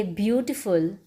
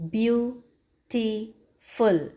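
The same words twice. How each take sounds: First: Said in the usual way. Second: "beautiful" very slowly in three parts, beau, ti, ful; syllable by syllable. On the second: Shown as a demonstration. Teacher counting syllables for children, "beautiful" slowly broken in three. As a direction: break "beautiful" with clear pauses between syllables. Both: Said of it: "there are three syllables".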